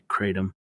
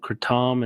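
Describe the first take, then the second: First: It is said with an American pronunciation. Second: It is said with a Southeast Asian pronunciation. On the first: "most of the people in the United States are calling it kratom" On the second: "it's called kratom in Southeast Asia, specifically in Thailand"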